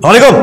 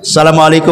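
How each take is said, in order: First: The greeting is said in an angry, irritated tone. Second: The greeting is said in a soft, calm tone. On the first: The speaker is annoyed with the listener. The speaker calls it wrong. "mengucapkan salam dengan nada marah tidak boleh" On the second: The greeting is offered as a kind prayer. The speaker calls it right. "tetap saja salamnya lembut gitu kan"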